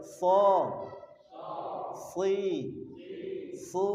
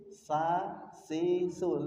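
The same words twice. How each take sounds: First: So with a raised tongue root, thick and full; heavy so si su. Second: Sa said thin, like a smile; the thin contrasting demo; light sa si su. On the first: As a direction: make So, Si, Su heavy from the back. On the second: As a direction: keep sa, si, su light and forward. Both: Shown as a demonstration. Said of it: "Kalau bedanya dengan sin".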